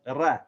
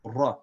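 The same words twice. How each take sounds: First: "ra" with a thin, light a; light fatha, wrong way. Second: "ra" full and heavy with a dark a; rounded, heavy "ra"; heavy fatha. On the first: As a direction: show the thin "ra" to avoid. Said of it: "That's light". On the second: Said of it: "We're gonna say ra". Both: Shown as a demonstration.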